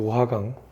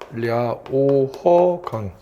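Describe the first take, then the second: First: The name is said with Korean sounds. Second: The name is said with Chinese sounds. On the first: "이 강의 이름이 요하강이에요" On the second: "중국식으로 발음하면"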